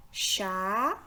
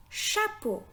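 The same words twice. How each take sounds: First: "Chapeau" as a drawn-out "cha", pause, then "po"; split into syllables. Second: Said in the usual way. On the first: Shown as a demonstration. Teacher counting syllables for learners, "Chapeau" split as cha-po. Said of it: "composé de deux syllabes". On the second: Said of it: "Le mot".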